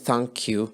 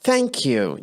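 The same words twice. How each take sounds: First: It is said flatly, with no energy. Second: It is said with energy and feeling. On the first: The speaker calls it wrong. "بدون مشاعر بدون power بدون emotions" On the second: The speaker calls it right. "لأن اللغة هي عبارة عن emotions عبارة عن عاطفة عبارة عن طاقة"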